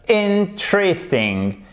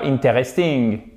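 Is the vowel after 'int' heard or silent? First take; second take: silent; heard. First: The vowel after 'int' is silent. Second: The vowel after 'int' is clearly pronounced. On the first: The speaker calls it right. "il n'y a pas de E" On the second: The speaker calls it wrong. "et pas interesting"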